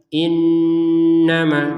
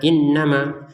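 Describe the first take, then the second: First: The n is held with a long nasal hum. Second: The n is short without a held hum. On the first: The speaker calls it right. "dengungan dua harokat panjangnya" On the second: The speaker calls it wrong. "jangan sekedar innama"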